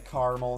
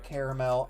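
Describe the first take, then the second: First: It sounds like the place name Carmel. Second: It sounds like the full word caramel. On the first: This is how many people in the Midwest say it. The speaker calls it wrong. "A lot of people say caramel" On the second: This is how it is supposed to be said. The speaker calls it right. "instead of caramel"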